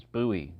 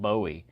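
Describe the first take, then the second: First: "Bowie" as BOO-ee; the local "Bowie", with an oo in the first syllable; Texas pronunciation. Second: "Bowie" as BOH-ee; rejected pronunciation. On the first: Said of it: "the way it's pronounced here in Texas". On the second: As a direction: give "Bowie" a long O, the non-Texan way. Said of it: "not Bowie". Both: Shown as a demonstration.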